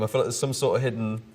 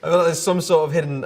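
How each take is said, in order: First: Said in the usual way. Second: Words pushed out through a laugh; trying not to crack up; breaking into laughter. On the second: Real, not acted. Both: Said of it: "to do with the laughter in the room".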